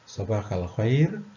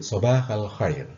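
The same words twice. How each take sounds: First: The voice rises at the end like a question. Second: The voice falls at the end like a statement. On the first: It is asked as a question. The speaker calls it wrong. "bukan pertanyaan. Bukan Sobahal khair, bukan begitu" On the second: It is stated as a greeting. The speaker calls it right. "ini adalah pernyataan"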